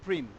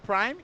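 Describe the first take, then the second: First: The vowel is a short 'ee' sound. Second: The vowel is the diphthong 'eye'. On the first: The speaker calls it wrong. "e não prim" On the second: The speaker calls it right. "por que que eu falo prime"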